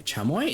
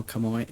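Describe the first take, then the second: First: Chamoy? said as chah-moy, starting with CH, rising; chamoy with a CH sound. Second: Chamoy said as kah-moy, hard K at the start; chamoy with a K sound. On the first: Streamer wondering about the name, Chamoy? with CH start. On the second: Streamer comparing ways to say the sauce, chamoy as KAH-moy. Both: Shown as a demonstration. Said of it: "Is it chamoy or chamoy?".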